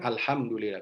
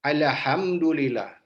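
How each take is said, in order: First: The L is said smoothly without echo. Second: The L gets an extra bouncing echo. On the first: The speaker calls it right. "kan mestinya kan" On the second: The speaker calls it wrong. "dikolkolahkan lamnya"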